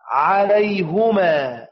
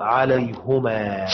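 First: عليهما chanted slowly with a kasra on the ه, as in Quranic recitation; slow recitation of the common reading; recited word. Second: عليهما read slowly with a damma on the ه, said as "ʿalayhumā"; Yaqub's variant recited for students. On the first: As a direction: draw out عليهما like reciting the verse. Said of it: "قال رجلان من الذين يخافون". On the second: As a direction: give عليهما the u sound on the ه, slowly. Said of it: "بالضم". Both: Shown as a demonstration.

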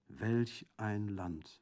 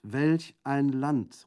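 First: Very slow, drawn-out lament; slow exclamation. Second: Slow, loud, higher exclamation; crying out. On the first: Prefect breaking a long silence, exclaiming slowly. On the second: Prefect jumping up in exasperation, crying out. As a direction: burst out, stretching each word. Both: A narrator's reading. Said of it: "rief endlich aufspringend der Präfekt".

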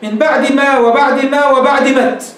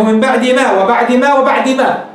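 First: Slow verse ending "مت" with a clear t; slow chant, final "مت" sharp t; final t on met. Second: Slow verse ending "ما" with an open long a; slow chant, final "ما" an open vowel; original ma. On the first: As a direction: stop on "مت" with a voiced t, not ma. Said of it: "مت قالوا هذه أصلها ما". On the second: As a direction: end on "ما" with a long a, no t. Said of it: "لأنه". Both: Shown as a demonstration.

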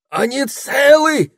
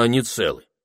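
First: Very high, loud drawn-out squeal; frantic high-pitched squealing. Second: Said in the usual way. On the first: A narrator's reading. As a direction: shriek the question in a high, slow squeal. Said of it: "взвизгнула Табита". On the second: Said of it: "спросил Этельред".

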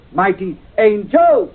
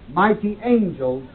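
First: "Mighty angels!" with the weight on "Mighty", louder and slow; stress on mighty. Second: "mighty angels" with the weight on "angels", said slowly; stress on angels. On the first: Teacher showing the class the stress moved to "Mighty". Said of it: "when he wants to emphasize the mighty part". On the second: Teacher showing the class the stress on "angels". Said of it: "the emphasis in the Bible will always be on the angels". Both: Shown as a demonstration.

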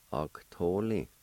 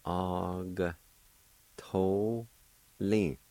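First: "Og, to, li" run together as one word; joined-up word. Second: "Og, to, li" in drawn-out separate syllables. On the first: Teacher giving learners the whole word, "Og, to, li" joined up. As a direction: join "Og, to, li" up without pauses. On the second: Teacher showing learners the G sound, "Og, to, li" syllable by syllable. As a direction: break "Og, to, li" apart, a pause after each syllable. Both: Shown as a demonstration. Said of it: "pronounce the G sound with the A like this".

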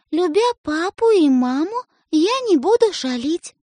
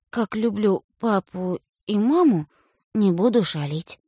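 First: High, slow and deliberate; dictating a vow. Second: Put-on boy grudgingly repeats his sister's vow, slow. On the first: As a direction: spell out the promise for him. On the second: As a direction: mumble the promise back. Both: A narrator's reading.

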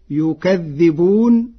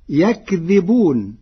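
First: يكذبون read slowly as yukadhdhibun, with the ya in damma; يكذبون with damma on the ya and a doubled dhal; Warsh reading. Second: يكذبون read as yakdhibun, with the ya open and a light dhal; يكذبون with fatha on the ya and a light, unstressed dhal; Hafs reading. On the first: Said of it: "بضم الياء وفتح الكاف وتشديد الذال". (يكذبون بضم الياء وتشديد الذال) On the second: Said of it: "قرأ ورش كلمة يكذبون". (يكذبون بفتح الياء وتخفيف الذال) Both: Shown as a demonstration.

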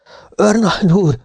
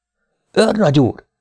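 First: High, urgent shout to the major; calling out. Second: High, alarmed call to the major; urgent call. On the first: A narrator's reading. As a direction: cry out for the major in alarm. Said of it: "kiáltotta". (magas, sürgető kiáltás) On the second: Acted. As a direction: call him back in fear. Sergeant calls major again. (magas, riadt megszólítás)

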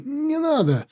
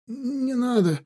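First: Even higher desperate plea. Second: High pleading moan. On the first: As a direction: beg harder, voice cracking up high. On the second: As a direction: beg for your life. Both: A narrator's reading. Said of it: "простонал раненый".

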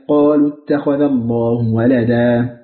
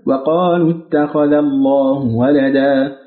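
First: Slow chant opening straight on قالوا; reading without waw. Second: Slow chant opening وقالوا with wa-; reading with waw. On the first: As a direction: intone قالوا with no wa- before it. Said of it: "بدون واو". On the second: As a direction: intone وقالوا with the leading wa- sounded. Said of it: "وبالواو". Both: Shown as a demonstration.

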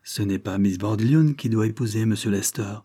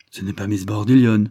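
First: Said in the usual way. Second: Louder, incredulous repeat of Bordillion; surprised echo. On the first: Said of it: "dit le sommelier avec embarras". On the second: A narrator's reading. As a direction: throw the words back in disbelief. Echoing the news in disbelief.

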